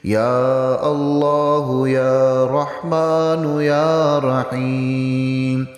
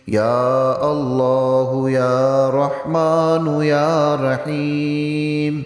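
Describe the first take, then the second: The two takes are said the same way.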